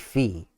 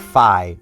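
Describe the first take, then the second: First: The vowel sounds like 'ee'. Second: The vowel sounds like 'eye'. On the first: The speaker calls it right. "It would be Fee" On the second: The speaker calls it wrong. "It would not be Fi. ... she's not lo-fi"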